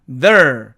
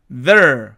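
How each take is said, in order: Both takes have the same delivery.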